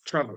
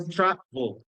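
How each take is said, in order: First: "travel" short and quick, second syllable reduced; correct pronunciation. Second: "travel" slowed, split into two full syllables, tra-bol; wrong pronunciation. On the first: Teacher correcting the English word for students, correctly pronounced. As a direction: say "travel" compactly, falling away after TRA. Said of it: "es travel". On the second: Teacher showing students how it is not said, mispronounced. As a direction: overpronounce "travel" as a Spanish-sounding tra-bol. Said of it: "No es, no es travel". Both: Shown as a demonstration.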